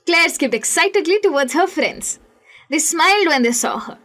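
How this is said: It pauses at the end of each sentence.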